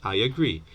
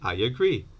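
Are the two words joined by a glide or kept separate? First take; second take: joined; joined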